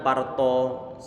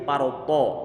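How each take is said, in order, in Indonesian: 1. Huruf t-nya tipis dan biasa. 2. Huruf t-nya tebal dan berat. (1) "bukan to biasa. Tidak sebagaimana parto" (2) "Ini huruf tebal dia"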